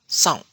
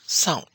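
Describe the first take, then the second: No difference in how they are said.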